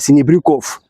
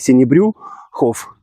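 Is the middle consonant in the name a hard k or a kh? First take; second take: k; kh. First: The name is said with a hard k sound. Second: The name is said with a kh sound. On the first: This is how Finnish speakers said the surname. The speaker calls it wrong. "финны не могли нормально произносить фамилию" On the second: This is the original Russian surname. The speaker calls it right. "как надо"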